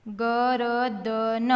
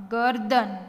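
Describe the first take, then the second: First: Slow, each letter held; sounded out. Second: Said in the usual way. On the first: Shown as a demonstration. Teacher spelling for beginning readers, sounded out. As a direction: stretch ગરદન out as ga-ra-da-na.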